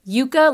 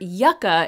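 First: The first vowel is a long U sound. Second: The first vowel is a short U sound. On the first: It names the root vegetable used for fries. "Yucca, like the fries, is pronounced with the long U" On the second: It names the desert plant. "yucca is actually a desert plant, ... and it has the short U"

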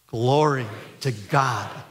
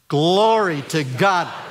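First: It is said at a quiet volume. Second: It is said at a louder volume.

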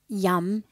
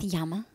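First: The word ends without a final vowel sound. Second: The word ends with a final vowel sound. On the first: The speaker calls it right. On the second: The speaker calls it wrong.

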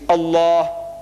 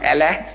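First: Allah is said with the native Arabic pronunciation. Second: Allah is said with an anglicized pronunciation. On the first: The speaker calls it right. "it's Allah" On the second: The speaker calls it wrong. "It is not Allah"

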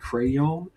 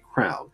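First: The word is said fully with two syllables. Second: The word is squeezed into one syllable. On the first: This is how it is said in northern areas. "I actually will do my best to pronounce it all the way through" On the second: This is how it is said in the southern United States. "My family is from southern United States, therefore there's a reason why I say crown"

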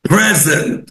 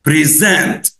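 First: The stress is on the first syllable. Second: The stress is on the second syllable. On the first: It is a noun meaning a gift. "لو الستريس على اول مقطع هنقول present present ودي معناها هديه" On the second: It is a verb meaning to present something. "لو هنشدد على المقطع الثاني هننطقها present present ودي معناها يقدم"

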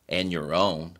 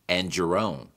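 First: The d is dropped; n links into your. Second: The d becomes a J sound before your. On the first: "And 词尾的 d sound 被去掉以后，字母 n 所发的 n 音和下面一个单词 your 词首的 e sound 产生了连读" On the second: "they prefer to turn it into the J sound"

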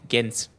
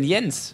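First: The name starts with a hard G sound. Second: The name starts with a Y-like sound.

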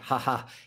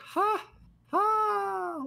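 First: The laugh is said at a normal pace. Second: The laugh is said very slowly.

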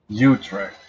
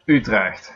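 First: The name is said with an English-style pronunciation. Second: The name is said with a Dutch pronunciation. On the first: The speaker calls it wrong. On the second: The speaker calls it right.

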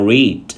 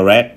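First: The vowel is long, like 'reed'. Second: The vowel is short, like 'red'. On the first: It is the present tense. "đọc là read cho hiện tại" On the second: It is the past tense. "quá khứ lại đọc là"

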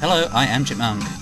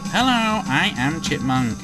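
First: The voice is fast but keeps normal pitch. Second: The voice is sped up and squeaky high. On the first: The speaker calls it wrong. "it doesn't change the pitch" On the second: The speaker calls it right. "instead of it turning into like"

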